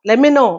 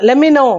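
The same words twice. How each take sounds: No difference in how they are said.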